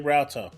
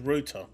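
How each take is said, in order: First: It is said with an American pronunciation. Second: It is said with a British pronunciation. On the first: This is how the listener's people say it. "you say router" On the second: This is the proper way to say it. "The correct pronunciation is router"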